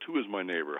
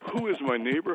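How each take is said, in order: First: The question sounds guarded and evasive. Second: The question sounds sincere and open. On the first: The asker wants to avoid responsibility. "I recognize that tone of voice. ... How can I avoid responsibility here?" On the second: The asker wants to know how to help. "it wasn't, who is my neighbor? How can I help?"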